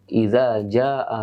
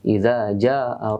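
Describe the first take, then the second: No difference in how they are said.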